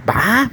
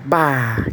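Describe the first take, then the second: First: High-pitched, drawn-out "Bah" of delight; wowed "Bah" at a great song; impressed "Bah". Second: "Bah" as a subdued, sorry reaction; drawn-out "Bah" of dismay; sad "Bah". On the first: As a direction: stretch "Bah" up high, pleasantly surprised. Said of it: "uma música que tu vai curtir". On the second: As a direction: say "Bah" like hearing bad news. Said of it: "mais triste". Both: Shown as a demonstration.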